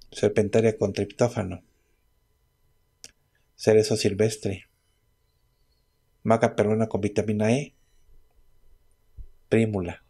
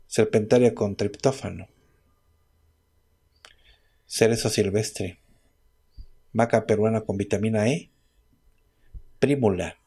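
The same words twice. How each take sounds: The two takes are said the same way.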